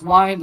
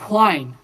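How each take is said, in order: First: The word starts with a plain w sound. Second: The word starts with a breathy hw sound. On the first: "most accents, they don't pronounce a difference. It's wine" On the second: "In this one, they specifically pronounce the H"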